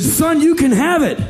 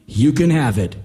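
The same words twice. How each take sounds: First: High, loud dare; loud challenge. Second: Said in the usual way. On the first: Retold or imitated. Daring the boy to take the money, loud and high. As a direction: throw the dare at him.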